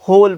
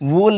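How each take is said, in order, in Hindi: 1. शब्द की शुरुआत 'h' की आवाज़ से होती है। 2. शब्द की शुरुआत 'w' की आवाज़ से होती है। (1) "होल पढ़ेंगे" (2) "वोल नहीं पढ़ेंगे इसको"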